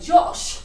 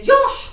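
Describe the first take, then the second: First: It is said in a much lower voice. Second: It is said in a higher voice. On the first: The speaker calls it right. "her voice is much lower" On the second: The speaker calls it wrong. "not like that"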